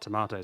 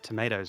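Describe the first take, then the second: First: It is said with a British 'ah' vowel. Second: It is said with an American 'ay' vowel. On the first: This is the speaker's own native way of speaking. The speaker calls it right. "not tomatoes" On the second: The speaker has picked up the local way of speaking. The speaker calls it wrong. "I said tomatoes"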